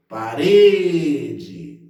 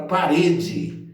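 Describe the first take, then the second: First: Parede called out loud with a long RE; calling a word. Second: Said in the usual way. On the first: Shown as a demonstration. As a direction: hold the middle syllable of parede, as if calling someone. (parede chamado em voz alta, alongando o RE) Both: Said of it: "vamos chamar".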